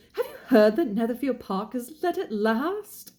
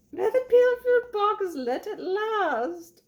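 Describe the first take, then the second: First: High-pitched British lady with news; gossipy wife, voice lifted, British accent. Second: Very high, drawn-out squeal of an English mother; hammed-up film mum, slow and piercingly high; Brenda Blethyn. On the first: Acted. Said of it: "said his lady to him". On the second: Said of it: "I loved that actress that played the mom".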